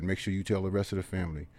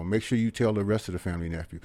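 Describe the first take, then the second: First: Said in the usual way. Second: Quiet plea. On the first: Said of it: "he said". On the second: Retold or imitated. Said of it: "And he said".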